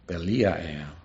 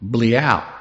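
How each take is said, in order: First: The word is said with three syllables. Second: The word is said with two syllables. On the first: This follows a standard dictionary transliteration. "The transliteration in Strong's pronounces it this way" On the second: This follows a native speaker's pronunciation. "Nah, you don't pronounce it Belial. It's Bleal"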